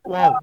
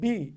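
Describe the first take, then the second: First: The lips round without closing, giving a w sound. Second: The lips close fully, giving a b sound.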